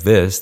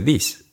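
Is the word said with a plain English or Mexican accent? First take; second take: plain English; Mexican. First: It is said with a plain English vowel. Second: It is said with a Mexican Spanish 'ee' vowel.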